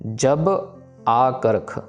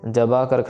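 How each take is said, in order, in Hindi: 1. b अगले स्वर से पहले खत्म हो जाती है, अलग रहती है। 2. b सीधे अगले स्वर में चली जाती है। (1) "जब वर्ड बोल के फिर आकर्ख बोलना है" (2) "ऐसे बब्बे में डायरेक्टली कन्ना नहीं लगाना, जबा करख नहीं"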